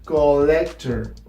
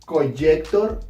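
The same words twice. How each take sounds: First: The middle consonant is a plain single L. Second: The middle consonant is not a plain L. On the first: The speaker calls it right. "it is pronounced collector ... like one L" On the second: The speaker calls it wrong. "It's not pronounced collector"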